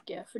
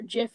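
First: "gif" with a hard g as in gift. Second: "gif" said as jiff, the brand; soft g. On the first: Stubbornly siding against inventor, hard-g gif. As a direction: start "gif" like go. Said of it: "I'm still pronouncing it". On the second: Naming the peanut butter brand, soft-g jiff. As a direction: start "gif" with a j sound. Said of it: "gif is the peanut butter". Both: Shown as a demonstration.

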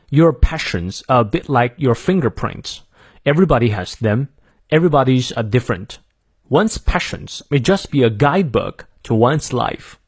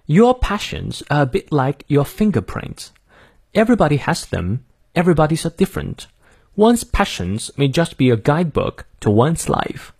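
First: Careful American model reading, R sounded; American accent. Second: Careful British model reading; British accent. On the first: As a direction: read it through in American English for learners. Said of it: "我念一下美式发音". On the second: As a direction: read it through in British English for learners. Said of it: "从头到尾来念一遍哈". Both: Shown as a demonstration.

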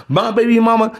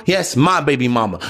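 First: Put-on "My baby mama" pitched up as a question; incredulous echo question. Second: Put-on "yes, my baby mama" dropped low and falling; emphatic confirmation. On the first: Asking himself about his own ex, questioning. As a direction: ask "My baby mama" high, as if doubted. Rhetorical question, then confirmed. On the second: Answering himself about his own ex, firmly confirming. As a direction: confirm it with weight on "my", pitch falling. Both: Shown as a demonstration.

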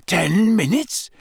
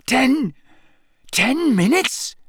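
First: Croaking. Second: Higher, slow, shocked croak; panicked croak. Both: A narrator's reading. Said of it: "Harry croaked".

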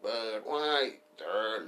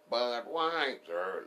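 First: Budweiser, stretched very slow; stretched mock ad call. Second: Drawn-out mock ad call. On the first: Repeating the old ad, Budweiser stretched very slow.

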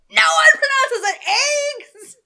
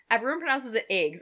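First: High, drawn-out screaming protest; outraged shout. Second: Said in the usual way. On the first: Retold or imitated. Reddit crowd answering one commenter, outraged screaming. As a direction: yell it at the top of your voice, slowly. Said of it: "everyone was on Reddit was like". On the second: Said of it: "somebody from Georgia was like".

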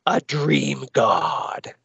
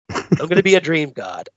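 First: Slow, drawn-out mock-villain boom; mock villain proclamation. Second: Said in the usual way. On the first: Reviewer voicing the villain's plan, slow mock-villain proclamation. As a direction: stretch it out like a megalomaniac announcing his destiny.

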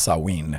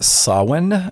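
First: Samhain said as sah-WEEN; more accurate pronunciation. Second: Samhain said as SAH-win, loud and high; common pronunciation of Samhain. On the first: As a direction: end Samhain on a long "ween". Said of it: "it's actually more accurately pronounced". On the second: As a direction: say Samhain with a short unstressed "-win" ending. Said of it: "sometimes you'll hear it pronounced". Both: Shown as a demonstration.

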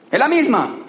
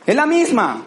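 No difference in how they are said.

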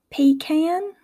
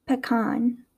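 First: "pecan" as "pee-can", pitched up; Southern pronunciation. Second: "pecan" as "puh-kahn"; Midwestern pronunciation. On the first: Teacher contrasting accents, "pecan" said Southern as "pee-can". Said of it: "in the Southern accent". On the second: Teacher contrasting accents, "pecan" said Midwestern as "puh-kahn". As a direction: say "pecan" with a reduced first syllable, then kahn. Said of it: "in my Midwestern accent". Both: Shown as a demonstration.

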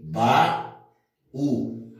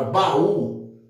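First: "baú" said ba... ú, with a clear pause; teacher dividing "baú" as ba, then ú; split into syllables. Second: Said in the usual way. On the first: Shown as a demonstration. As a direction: break "baú" into two separate syllables. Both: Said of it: "eu vou dividir aqui".

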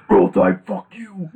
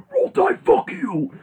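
First: Higher, louder Roll Tide, then fuck you dropping off; Coach O shout. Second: High, slow mock yell; Coach O shout. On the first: Retold or imitated. Host repeats Coach O's taunt, higher and loud at first. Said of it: "Dude, like". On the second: Host mimics Coach O taunting Alabama with a high yell. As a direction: bellow it like a fired-up coach. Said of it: "he was like".

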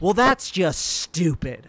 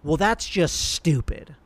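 First: Sarcastic. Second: Snarky. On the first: Pretend. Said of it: "a very sarcastic tone". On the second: Retold or imitated. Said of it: "in a really, like, snarky tone".

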